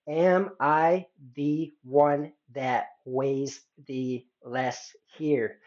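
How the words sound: Each word is separated by a short pause. The speaker calls it right. "take a pause between each word"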